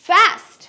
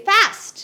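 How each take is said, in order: First: It is said with an American accent. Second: The same.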